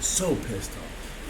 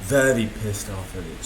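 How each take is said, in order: First: A slow unvoiced hiss of anger; real anger held down to a whisper. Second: Said in the usual way. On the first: Real, not acted. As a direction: drag it out in a breathless whisper.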